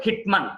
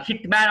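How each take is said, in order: First: మన్ reduced to "mun"; correct pronunciation. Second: మ్యాన్ with a full "a"; mistaken pronunciation. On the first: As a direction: say హిట్ మన్ with a short second vowel. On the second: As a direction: say హిట్ మ్యాన్ with "man". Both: Shown as a demonstration. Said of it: "అనకూడదు".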